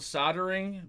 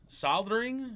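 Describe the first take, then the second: First: The word is said with no L sound. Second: The word is said with an L sound. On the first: "I call it soldering" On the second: "since there's an L in it, I guess you pronounce it like"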